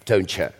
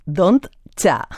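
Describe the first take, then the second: First: "don't you" run together as "don'tcha", falling. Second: "don't cha" said as one blended word; don'tcha. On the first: Teacher shows the written slang form, said "don'tcha". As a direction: blend "don't you" into one word, "don'tcha". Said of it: "lo escriben a veces así". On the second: Host repeats the slang spelling, said "don'tcha". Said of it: "Lo escriben así". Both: Shown as a demonstration.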